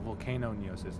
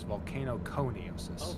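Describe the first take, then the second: First: The ending is said without the k sound. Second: The ending is said with a k sound. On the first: The speaker calls it wrong. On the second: The speaker calls it right.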